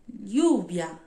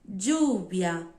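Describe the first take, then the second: First: The ll sounds like a palatal ly sound. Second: The ll sounds like a dj sound. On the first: This is how it is said in Spain. "som da Espanha" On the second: This is the best-known pronunciation. "E som de D"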